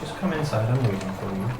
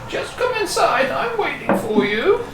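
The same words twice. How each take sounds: First: It is said in the speaker's plain voice. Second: It is said in Neil's character voice.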